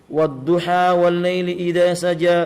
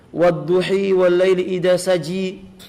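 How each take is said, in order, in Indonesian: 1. Kedua kata kunci berakhir dengan vokal 'a'. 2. Kedua kata kunci berakhir dengan vokal 'i'.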